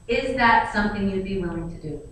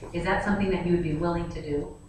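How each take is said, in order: First: The question sounds blunt and demanding. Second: The question sounds soft and polite. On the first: It comes across as rude. The speaker calls it wrong. "I don't say it that tone" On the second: It comes across as a polite request. The speaker calls it right. "but I say"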